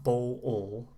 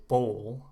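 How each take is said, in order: First: Bowl split slowly into bo-ol; two-syllable bowl. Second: Bowl in one beat, long oh into L; one-syllable bowl. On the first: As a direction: drag bowl out as two beats, bo-ol. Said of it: "one syllable. So not bowl". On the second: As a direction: say bowl as a single smooth syllable. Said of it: "one syllable". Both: Shown as a demonstration.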